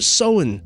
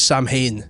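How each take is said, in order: First: It is said the Irish way, not as spelled. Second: It is read out as spelled, Sam Hain. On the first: The speaker calls it right. "he gets it right and he calls it Samhain" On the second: The speaker calls it wrong. "he says Sam Hain"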